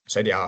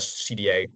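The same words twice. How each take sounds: First: The letter names are pronounced as in Dutch. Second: The letter names are pronounced as in English.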